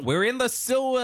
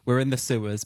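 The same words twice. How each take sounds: First: Much higher, eager invitation; mock eager American. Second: Said in the usual way. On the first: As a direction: call it out like a gleeful tourist. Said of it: "But America's like". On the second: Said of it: "Every other country is like".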